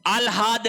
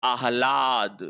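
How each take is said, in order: First: आह्लाद with l before h; wrong pronunciation. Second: आह्लाद with h before l; correct pronunciation. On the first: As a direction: say आह्लाद as "aal-haad". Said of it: "नहीं होता है". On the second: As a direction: say आह्लाद lower, as "aah-laad". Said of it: "शब्द होता है". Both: Shown as a demonstration.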